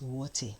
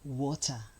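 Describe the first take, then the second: First: The final syllable has an 'air' sound. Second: The final syllable has a plain 'er' sound. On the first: The speaker calls it wrong. "very, very unfair to pronounce the word water as water" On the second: The speaker calls it right. "they have the er sound"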